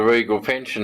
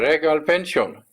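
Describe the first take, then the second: First: It is said in a drawling Australian accent. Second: It is said in a Filipino accent. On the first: The speaker calls it wrong. "in my best Aussie drawl" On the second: The speaker calls it right. "he said it properly"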